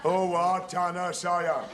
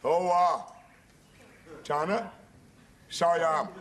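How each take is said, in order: First: It is said fast. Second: It is said slowly.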